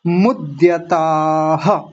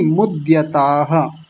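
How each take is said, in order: First: मुद्यताः said slowly as a faulty reading; wrong pronunciation. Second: मुद्यताः said slowly and carefully, syllable by syllable; correct pronunciation. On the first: Teacher demonstrating the wrong मुद्यताः, slowly. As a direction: mispronounce मुद्यताः the way students do. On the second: Teacher modelling the correct मुद्यताः, slow and careful. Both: Shown as a demonstration. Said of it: "मुद्यताः नहीं".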